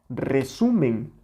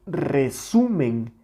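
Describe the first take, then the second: Both takes have the same delivery.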